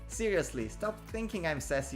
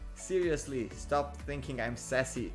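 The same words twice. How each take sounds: First: It is said in an imitated, put-on voice. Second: It is read in the speaker's ordinary voice.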